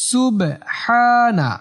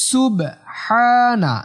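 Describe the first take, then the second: No difference in how they are said.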